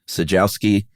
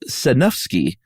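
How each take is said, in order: First: The name has no N sound. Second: The name has an N and F sound. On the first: The speaker calls it wrong. "Is the N silent? I figured it was Sajowski" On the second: The speaker calls it right. "the N is not silent. The J is like an H, and the W is like an F"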